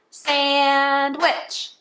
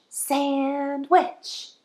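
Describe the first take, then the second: First: Sandwich clapped out in two beats; sand-wich, beat by beat; clapped syllables. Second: Said in the usual way. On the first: Shown as a demonstration. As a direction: split sandwich into two claps. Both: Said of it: "Two claps for two syllables".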